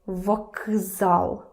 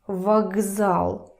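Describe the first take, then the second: First: The consonant before z is a voiceless k. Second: The consonant before z is a voiced g. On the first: The speaker calls it wrong. "Kz, kz, difficult. ... Nobody does that" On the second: The speaker calls it right. "it's easier to make k voiced"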